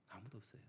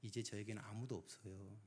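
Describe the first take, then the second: First: Much softer echo of 아무도 없어요, trailing off; a quiet hopeless echo; fading repeat. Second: Said in the usual way. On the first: Retold or imitated. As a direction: let 아무도 없어요 fall away almost to nothing. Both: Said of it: "그분이 그런 말씀을 하세요".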